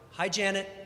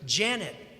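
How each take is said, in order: First: It is said a little louder. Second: It is said loudly and assertively.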